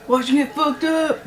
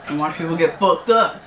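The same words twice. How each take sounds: First: High, gleeful fight hype; hyped-up yell. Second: Said in the usual way. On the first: Real, not acted. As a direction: cheer it out, fired up. Hyping the main event.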